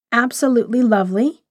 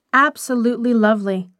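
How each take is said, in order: First: Questioning echo with a rising end; brooding echo. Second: Firm admiring statement, falling at the end. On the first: Wife alone repeating her husband's praise, brooding. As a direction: repeat it to yourself as a wondering question. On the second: Husband praising the stranger to his wife, admiring. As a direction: state it as sure, mild admiration. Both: A narrator's reading.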